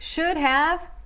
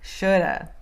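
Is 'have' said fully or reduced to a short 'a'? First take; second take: full; reduced. First: Both words are said fully and separately. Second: The words blend, 'have' reduced to 'uh'.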